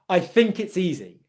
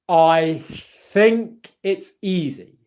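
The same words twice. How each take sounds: First: It is said quickly, at natural speed. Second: It is said slowly and carefully. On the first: "one time at native speed" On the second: "one more time on this one"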